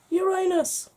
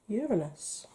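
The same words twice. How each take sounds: First: It is said with the older, jokey pronunciation. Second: It is said with the present-day pronunciation.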